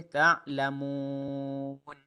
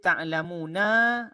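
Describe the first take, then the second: First: The word ends on a silent final consonant. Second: The word ends with a short vowel a. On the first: The reciter stops at this word. "kita matikan dia" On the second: This is the word's original full form.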